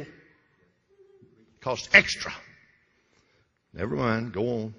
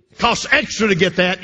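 First: Slow breathy aside, barely voiced; conspiratorial whisper. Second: Said in the usual way. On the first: Preacher to congregation, whispering a sly aside about HBO. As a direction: lean in and whisper it like a secret.

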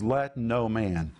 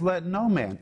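First: Said in the usual way. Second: "Let no man" raised high and pressed hard; emphatic. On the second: Shown as a demonstration. Preacher warning the congregation, "Let no man" stressed emphatically. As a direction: lean into "no man" as a stern warning.

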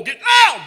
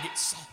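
First: Huge high shout; hammed-up preacher bellow; preacher getting loud. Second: Suddenly hushed; mock preacher going quiet; preacher getting soft. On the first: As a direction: blast it like a fireball preacher. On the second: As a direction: drop to a soft, small voice. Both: Shown as a demonstration.

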